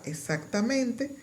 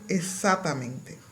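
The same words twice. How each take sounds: First: The consonant before the t is kept. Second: The consonant before the t is dropped. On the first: "En la palabra" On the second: "desaparición de consonantes intercaladas"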